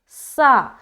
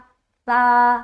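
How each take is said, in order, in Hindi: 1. इस व्यंजन में तेज़, सीटी जैसी सिसकारी है। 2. यह व्यंजन नरम है, इसमें कोई सीटी जैसी सिसकारी नहीं है। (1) "ये जो सीटी नुमा जो आवाज आ रही है ना, ये नहीं आनी चाहिए" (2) "सीटी की आवाज नहीं आनी चाहिए"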